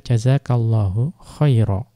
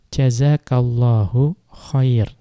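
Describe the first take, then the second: First: The last word ends with an 'a' vowel. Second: The last word ends on the consonant 'r'. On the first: This follows the majority of Arabs. The speaker calls it right. "yang lebih benar, itu dibaca jazakallahu khaira" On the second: This follows the Rabi'ah tribe. The speaker calls it wrong. "mungkin ada yang menyebutkan jazakallahu khair"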